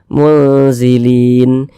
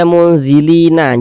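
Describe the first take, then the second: First: The word ends on a plain n sound. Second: The word ends with an added a vowel. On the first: The speaker calls it right. "Ini kita baca munzilin" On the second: The speaker calls it wrong. "Jangan dibaca munzilina"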